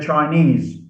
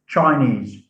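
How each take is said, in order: First: The stress is on the last syllable. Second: The stress is on the first syllable. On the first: The speaker calls it right. "We say Chinese" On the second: The speaker calls it wrong. "not Chinese"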